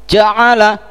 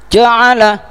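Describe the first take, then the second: No difference in how they are said.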